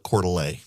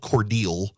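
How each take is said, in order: First: The name is said like Coeur d'Alene. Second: The name is said like Cordele. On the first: An outsider said it this way. The speaker calls it wrong. "she on the campaign trail would call it Coeur d'Alene" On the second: This is how the town's name is said. The speaker calls it right. "it was called Cordele"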